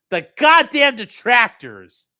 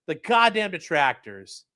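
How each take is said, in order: First: Louder, slow dramatic reading; milk each word theatrically; mock dramatic read. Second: Said in the usual way. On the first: Shown as a demonstration. Streamer rereading a phrase for chat, hammed-up drama.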